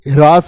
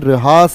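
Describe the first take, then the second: First: The h sound comes before the r sound. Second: The r sound comes before the h sound. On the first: The speaker calls it wrong. "ये ह्रास नहीं है" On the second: The speaker calls it right. "ये रहास है"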